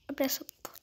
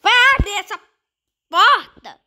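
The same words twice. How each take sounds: First: Soft, breathy whisper of the command; whispered urging. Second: High, loud command to open the door; loud urging. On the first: Gamer whispers at the game to open the door. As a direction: hush it to the screen. Same demand now whispered. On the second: Gamer yells at the game to open the door, loud. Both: Real, not acted.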